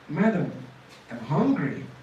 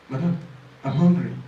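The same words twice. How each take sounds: First: The voice rises and falls with expressive pitch. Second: The voice stays flat with little pitch movement. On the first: The listener feels pity for the speaker. The speaker calls it right. "because of voice modulation" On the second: The listener is puzzled and unmoved. The speaker calls it wrong. "It sounds somehow"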